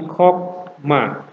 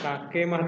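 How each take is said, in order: First: No vowel is sounded between the k and m. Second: A vowel is sounded between the k and m. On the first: The speaker calls it right. "tapi hokma" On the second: The speaker calls it wrong. "bukan kakemah"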